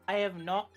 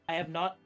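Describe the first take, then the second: No difference in how they are said.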